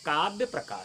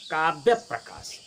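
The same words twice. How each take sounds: First: The sound before the pr cluster is said single. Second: The sound before the pr cluster is said doubled. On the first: The speaker calls it wrong. "कुछ लोग कहते हैं" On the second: The speaker calls it right. "सही उच्चारण है"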